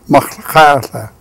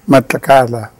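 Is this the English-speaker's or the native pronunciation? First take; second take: native; English. First: It is said with the original native sounds. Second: It is said the way English speakers say it. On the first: This is the original name, meaning the tides' movement. The speaker calls it right. "but the real issue is uh, Machlakatla" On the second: This is the outsiders' version of the name. The speaker calls it wrong.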